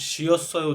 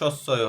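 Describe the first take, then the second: First: The syllable has a y glide, like syeo. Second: The syllable is plain sseo without a glide. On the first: The speaker calls it wrong. "উচ্চারণ হবে শিয়স্বয় উচ্চারণ হবে না" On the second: The speaker calls it right. "এখানে সস্বয় হবে"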